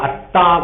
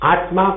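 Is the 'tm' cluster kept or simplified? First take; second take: simplified; kept. First: The cluster becomes a doubled t sound. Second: The word keeps a clear 't-m' cluster.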